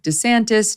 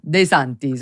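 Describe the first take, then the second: First: The name is pronounced the Americanized way. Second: The name is pronounced the Italian way. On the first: "make it a little bit more Americanized" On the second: "the proper Italian pronunciation would be"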